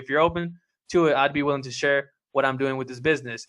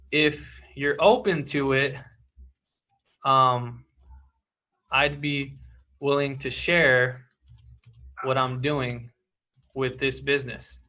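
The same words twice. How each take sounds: First: Fast run-through of the same line; quick pitch recap. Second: Drawn-out, gentle pause-filled offer; slow soft pitch read. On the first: Coach repeating his pitch quickly to sum up. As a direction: rattle the offer off briskly. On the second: Coach reading his pitch line aloud, slow and soft. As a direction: ease the offer out slowly and quietly. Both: Shown as a demonstration.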